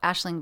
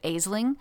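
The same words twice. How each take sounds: First: The name is said in an Irish pronunciation. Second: The name is sounded out as it is spelled. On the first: The speaker calls it right. "I later found out it was called Aisling" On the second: The speaker calls it wrong. "in my head, I pronounced it Aisling"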